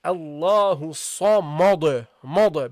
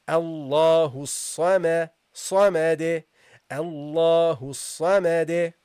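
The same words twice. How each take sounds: First: Samad with a dark, heavy mad as the mistake; heavy ma, wrong. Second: Allahu Samad said slowly, ma kept light; light ma, correct. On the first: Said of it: "don't say". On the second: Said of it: "That's how you should pronounce it". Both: Shown as a demonstration.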